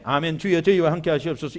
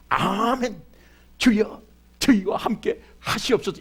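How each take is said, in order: First: Low, half-hearted mumbled 아멘, 주여 as a careless habit; wrong way to respond. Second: "아멘, 주여, 저희와 함께 하시옵소서" said with hopeful conviction; right way to respond. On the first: Pastor shows the congregation how not to answer: a low, listless amen. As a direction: mumble "아멘, 주여, 저희와 함께 하시옵소서" low, as if by rote. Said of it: "이렇게 하지 마세요". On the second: Pastor shows the congregation the right answer: an eager, believing amen. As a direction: answer the blessing like you mean it. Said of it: "이렇게 꿈을 가져야 돼". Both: Shown as a demonstration.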